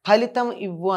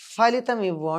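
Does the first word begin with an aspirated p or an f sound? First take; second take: aspirated p; f sound. First: The first word begins with an aspirated p sound. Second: The first word begins with an f sound. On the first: This is the intended request for a result. The speaker calls it right. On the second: The request does not reach its intended place. The speaker calls it wrong.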